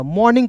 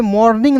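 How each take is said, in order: First: मॉर्निंग with the R dropped; correct pronunciation. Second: मॉर्निंग with the R sounded out; wrong pronunciation. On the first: Teacher teaching the right reading, मॉर्निंग with R left silent. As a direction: say मॉर्निंग as "maw-ning", silent R. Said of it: "मॉर्निंग पढ़ते हैं". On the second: Teacher showing learners what not to read, मॉर्निंग with a sounded R. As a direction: say मॉर्निंग as "mor-ning", R pronounced. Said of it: "यहाँ पे मॉर्निंग नहीं पढ़िएगा". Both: Shown as a demonstration.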